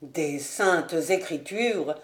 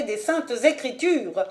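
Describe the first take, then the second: First: Slow, low scornful echo; contemptuous repeat. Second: Invoke scripture as final proof; emphatic authority. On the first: A narrator's reading. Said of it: "répéta Ravenswood en la regardant avec mépris". (répétition lente et méprisante) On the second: Acted. (ton haut, solennel et autoritaire)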